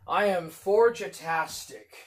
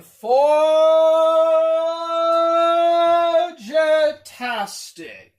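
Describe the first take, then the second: First: Said in the usual way. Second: Sung, drawn-out singsong, high and very slow, holding "forgetastic"; sung self-mockery. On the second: Streamer sings to chat about forgetting names, mock singsong. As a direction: croon the made-up word like a little jingle.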